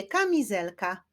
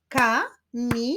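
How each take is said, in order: First: Said in the usual way. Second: "Ka-mi-zel-ka" in four separate beats; syllable by syllable. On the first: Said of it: "Wyklaszczmy sylaby w wyrazie kamizelka". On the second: Shown as a demonstration. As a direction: clap out Ka-mi-zel-ka with pauses between syllables. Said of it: "Wyklaszczmy sylaby w wyrazie".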